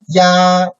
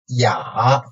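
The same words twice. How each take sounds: First: The pitch stays high and level. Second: The pitch dips low, then rises slightly.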